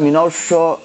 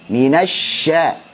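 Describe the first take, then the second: First: The sya sound is made heavy and thick. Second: The sya sound is flowing and light. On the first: The speaker calls it wrong. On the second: The speaker calls it right.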